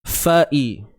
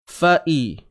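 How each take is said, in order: Both takes have the same delivery.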